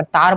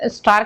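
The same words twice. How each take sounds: First: तार for स्टार, opening s left off; स्टार reduced to तार; dropped consonant. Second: Said in the usual way. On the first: Shown as a demonstration. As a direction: say तार, no s at the start. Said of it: "उसकी जगह पर तार बोल". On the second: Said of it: "स्टार कहना है".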